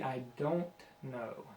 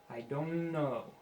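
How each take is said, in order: First: The T in "don't" is clearly audible. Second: The T in "don't" is dropped. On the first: The speaker calls it right. "It should be" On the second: The speaker calls it wrong. "I hear a lot of people say it"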